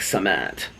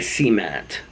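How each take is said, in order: First: It is said the non-Midwestern way. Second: It is said the Midwestern way.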